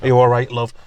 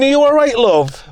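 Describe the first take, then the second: First: Said in the usual way. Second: Higher and louder, calling from far off; shouting across the road. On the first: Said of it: "whereas normally they would have rushed". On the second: Retold or imitated. Neighbours shouting to a fallen granny from across the road. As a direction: call it across a busy road. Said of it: "shouting to her from across the road".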